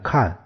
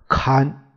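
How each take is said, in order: First: The syllable has a falling tone. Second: The syllable has a level tone. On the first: It is the everyday word meaning to see. "这个看见的看" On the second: It is the classical reading required by the poem's meter. "这个他读看啊，平生啊"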